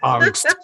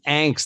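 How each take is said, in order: First: The word has a German-style vowel. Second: The word has an American-style vowel. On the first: This is not how the speaker says it. "I didn't just come over here from Hamburg. You know, of course I don't say angst" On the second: This is how the speaker says it. "I say angst. I'm from New Jersey"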